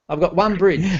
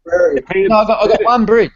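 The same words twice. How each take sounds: First: Said in the usual way. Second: Higher and louder, pressing on bridge; emphatic protest. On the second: Real, not acted. Modeller protesting to the host, louder and higher. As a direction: insist with a laugh in it, bridge punched. Self-mocking protest about scenery.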